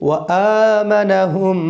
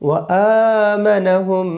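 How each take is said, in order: Both takes have the same delivery.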